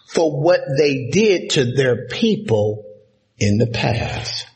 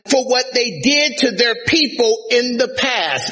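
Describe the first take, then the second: First: It is spoken at a slower pace. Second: It is spoken at a normal pace.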